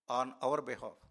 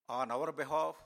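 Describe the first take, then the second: First: Our leaned on, phrase falling after it; on OUR behalf, weight on our; stress on our. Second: Said in the usual way. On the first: Shown as a demonstration. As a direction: hit the word our in on our behalf.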